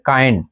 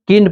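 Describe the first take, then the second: First: কাইন্ড with a full ai glide, kaind; correct pronunciation. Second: কিন্ড said with a short i, like kind without the ai glide; the wrong way to say কিন্ড, short i; wrong pronunciation. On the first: English teacher giving students the right reading, ai glide. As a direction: say কাইন্ড with the ai diphthong clearly. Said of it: "এটা কি পড়তে হবে?". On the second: English teacher showing students the wrong reading, short i. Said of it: "পড়তে হবে না". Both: Shown as a demonstration.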